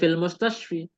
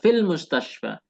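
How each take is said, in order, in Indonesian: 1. Kata terakhir berakhir dengan vokal 'i'. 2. Kata terakhir berakhir dengan vokal 'a'. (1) "Tidak menjadi fil mustashfi" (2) "kita membacanya fil mustashfa"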